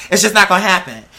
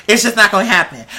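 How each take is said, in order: Both takes have the same delivery.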